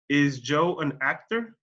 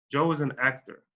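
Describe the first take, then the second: First: Slow question, pitch climbing on "actor"; rising question tune. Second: Plain statement, pitch going down on "actor" to finish; falling statement tune. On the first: Teacher turns the sentence into a question, rising tone on "actor". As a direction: lift "actor" at the end. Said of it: "mi entonación sube al final de la pregunta". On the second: Teacher shows where the sentence ends, falling tone on "actor". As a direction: let "actor" drop at the end. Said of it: "se va para abajo". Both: Shown as a demonstration.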